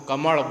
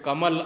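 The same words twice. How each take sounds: First: It ends in a retroflex l, between l and d. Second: It ends in a plain l sound. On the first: "हम कमल बोलते हैं" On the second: "जैसे कमल आप बोलते"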